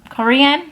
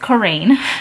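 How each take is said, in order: First: The name sounds like the word Korean. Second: The name sounds like Coraine, not Korean. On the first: The speaker calls it wrong. "I think I said Korean" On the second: The speaker calls it right. "Her name is Coraine"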